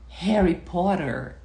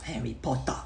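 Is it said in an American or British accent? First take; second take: American; British. First: It is said in an American accent. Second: It is said in a British accent.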